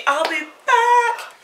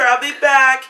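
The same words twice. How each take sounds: First: High, slow, drawn-out I'll be back; Terminator line. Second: Said in the usual way. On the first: Pretend. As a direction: stretch it like a movie catchphrase. Repeated promise, drawn out.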